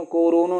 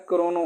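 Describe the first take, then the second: First: कोरोनो opened out as "ko-ro-no"; split "ko-ro" mistake. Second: क्रोनो in two syllables, "kro-no"; correct "kro" cluster. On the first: Teacher shows what is not said, कोरोनो as "ko-ro-no". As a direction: put an o between k and r in कोरोनो. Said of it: "कोरोनो नहीं होता है". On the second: Teacher gives the right form, क्रोनो as "kro-no". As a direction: run k straight into r in क्रोनो. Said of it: "क्रोनो होता है". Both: Shown as a demonstration.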